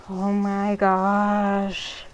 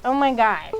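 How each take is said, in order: First: Long, slow exasperated groan of the words; slow disbelieving oh my gosh. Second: Louder, punchy exasperation; loud quick oh my gosh; annoyed. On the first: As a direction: drag it out, fed up. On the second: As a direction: snap it out, fed up. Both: Real, not acted. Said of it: "These parents".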